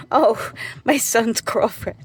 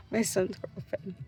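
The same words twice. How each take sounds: First: Higher and slower, remembering with an oh; sudden recall. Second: Much softer, slow, under the breath; muttered repeat. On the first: Mother suddenly recalls her son's girlfriend, drawn-out oh. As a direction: catch the thought as it pops up. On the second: Mother repeats the topic to herself, much softer. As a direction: say it again to yourself, dropping away. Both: Real, not acted.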